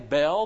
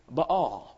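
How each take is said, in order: First: The word is said as one syllable. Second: The word is said as two syllables. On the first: This is how people usually say it. The speaker calls it wrong. "We always say Baal" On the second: This follows the double A in the name. The speaker calls it right. "but it's a double A. It's Baal"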